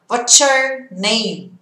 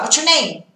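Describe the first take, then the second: First: It is said slowly. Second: It is said fast.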